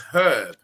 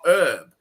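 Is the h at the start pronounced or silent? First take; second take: pronounced; silent. First: The initial h sound is pronounced. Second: The initial h sound is silent. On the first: The speaker calls it right. "the word is herb" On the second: The speaker calls it wrong. "not herb. So the fact that you guys forget there's a H"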